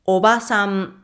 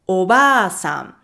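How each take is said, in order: First: The vowel after 'ob' is short. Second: The vowel after 'ob' is held long. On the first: "four more" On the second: "five more. The second one holds a for one extra beat"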